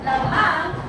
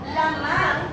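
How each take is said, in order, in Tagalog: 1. Ang diin ay nasa ikalawang pantig. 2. Ang diin ay nasa unang pantig. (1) "ang diin ay nasa pantig na mang" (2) "asan ang pantig na may diin? La"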